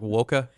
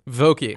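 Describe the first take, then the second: First: The name ends with an 'ah' sound. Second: The name ends with an 'ee' sound. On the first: This is the German way to say the name. The speaker calls it right. "V-O-C-K-E would be like Woka in German" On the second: This is the local way to say the name. The speaker calls it wrong. "they just toss the E on extra"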